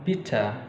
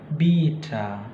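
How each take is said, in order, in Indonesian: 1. Vokal i pendek. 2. Vokal i panjang. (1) "I itu dilafalkan pendek seperti pada kata bitter" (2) "Jadi bukan bitter"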